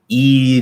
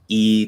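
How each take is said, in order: First: The vowel has no nasal sound at all. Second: The vowel has a slight nasal sound. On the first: "no nasal" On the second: "tiny nasal"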